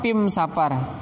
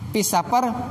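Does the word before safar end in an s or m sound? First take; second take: m; s. First: The word before safar ends in an m sound. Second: The word before safar ends in an s sound.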